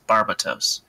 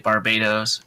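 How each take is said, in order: First: It sounds unlike the country's name. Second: It sounds like the country's name. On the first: This is how the show says it. "in the animation it's Barbatos" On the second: This is how some fans say it. "I hear people say Barbados"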